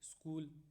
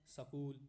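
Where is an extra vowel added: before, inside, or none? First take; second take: none; inside. First: The sk cluster is said with no added vowel. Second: A short vowel is inserted between s and k.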